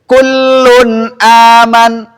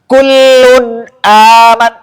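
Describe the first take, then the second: First: The nasal hum resonates clearly through the open nose. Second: The nasal hum sounds muffled, as if the nose is blocked. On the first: The speaker calls it right. "ini saya baca dengan tidak menutup hidung" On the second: The speaker calls it wrong. "Bagus gak kedengarannya?"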